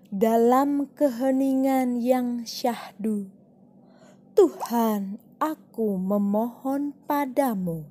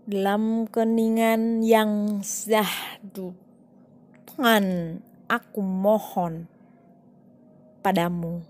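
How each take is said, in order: First: Every word is pronounced clearly and distinctly. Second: The words are slurred and pronounced unclearly. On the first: The speaker calls it right. "Pengucapannya harus jelas" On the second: The speaker calls it wrong. "lafalnya tidak jelas kan?"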